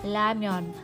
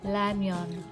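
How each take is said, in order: First: The word begins with an L sound. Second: The same.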